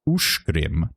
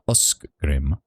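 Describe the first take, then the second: First: The middle consonant is pronounced as sh. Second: The middle consonant is not pronounced as sh. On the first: The speaker calls it right. "that C G sound is, is a sh" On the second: The speaker calls it wrong. "not uskgrim"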